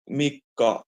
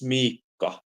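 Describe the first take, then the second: First: The first vowel is short. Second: The first vowel is long. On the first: The speaker calls it wrong. "instead of" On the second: The speaker calls it right. "it's Miikka. If it's with two eyes"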